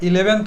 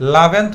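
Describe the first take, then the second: First: The word starts with a short vowel sound. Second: The word starts directly with an L sound. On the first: "আবার ইলেভেন্থ বলতে পারো, both আর right" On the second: "only লাভেন। সেটাকে তুমি লাভেন্থ বলতে পারো"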